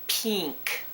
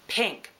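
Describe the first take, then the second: First: The vowel is stretched into a long 'ee' sound. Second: The vowel is a short, plain 'ih' sound. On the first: This is a Deep South regional pronunciation. The speaker calls it wrong. "People overpronouncing the word pink, so it sounds like pink" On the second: This matches the spelling of the word. The speaker calls it right. "and it's pink. P I N K, not pink"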